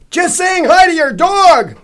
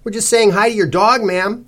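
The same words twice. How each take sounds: First: Very high, drawn-out loud yell; bellow. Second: High, chirpy politeness; brightly. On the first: Zal to the stout lady over the TV, bellowing. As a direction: bellow it slowly for someone who can't hear. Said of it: "Zal bellowed, probably in relief". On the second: Cece to the dog's owner, brightly. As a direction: sing it out cheerily and a bit loud. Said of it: "Cece said brightly". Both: A narrator's reading.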